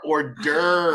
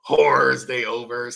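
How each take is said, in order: First: It is said the French way, like 'or-derves'. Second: Every letter is sounded, like 'whores they overs'. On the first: The speaker calls it right. "They are hors d'oeuvres" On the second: The speaker calls it wrong. "like most Americans would say it when they see how it's spelled"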